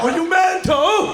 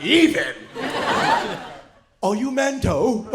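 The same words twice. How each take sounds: First: High, loud, drawn-out British outrage; mock British accent. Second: Incredulous, drawn-out British mimicry; mock British accent. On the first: Comic challenging a British man louder, outraged mock British accent. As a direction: belt it out in a broad British accent. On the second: Comic rejecting a British man's claim, mock British accent. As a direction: throw it back in a broad British accent. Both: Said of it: "I get the accent".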